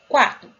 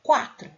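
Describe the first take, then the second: First: Quatro said again, much louder and firmer; louder retake. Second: Said in the usual way. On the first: Shown as a demonstration. Teacher redoing the number after an audio glitch, louder. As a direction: restate Quatro loud and clear. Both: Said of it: "peraí que deu uma falha".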